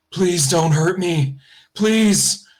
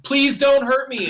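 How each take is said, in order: First: Slow, pleading, rising higher on the last please; a trapped man begging, drawn out; pained plea. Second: Put-on high, slow, frightened little girl crying out; screaming plea. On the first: Face in the jelly begs the player, slow pained plea. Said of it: "looks pained almost". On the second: Little girl screams at her attackers, high slow frightened plea. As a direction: beg for mercy in pain, high and drawn out. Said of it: "like, screaming". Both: A narrator's reading.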